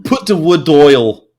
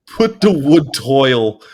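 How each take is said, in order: First: Slow, louder thick Yorkshire "Put the wood oil" with "wood" and "oil" run together; laughing mimic of the friend's broad Yorkshire. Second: Slow, half-laughing repeat of "Put the wood toil"; baffled listener echoing the Yorkshire phrase with a laugh. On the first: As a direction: imitate a friend's broad Yorkshire, slowly and loud. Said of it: "And he'd say". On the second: Retold or imitated. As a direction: puzzle over the phrase while giggling. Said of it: "And I'm like".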